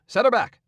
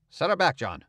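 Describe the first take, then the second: First: Higher, louder urgent order; alarmed shout. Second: Said in the usual way. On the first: Acted. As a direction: yell it to back off fast. Man orders boat back, alarmed.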